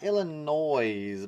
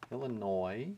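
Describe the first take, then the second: First: The final s is sounded. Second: The final s is silent. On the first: The speaker calls it wrong. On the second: The speaker calls it right.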